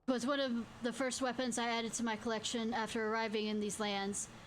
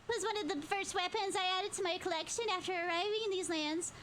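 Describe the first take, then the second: First: It is said in a different, non-moogle voice. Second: It is said in the moogle character voice.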